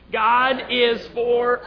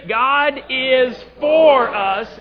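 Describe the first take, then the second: First: The stress falls on the word 'us'. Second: The stress falls on the word 'for'. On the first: "And then the last time, us" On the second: "This time, four"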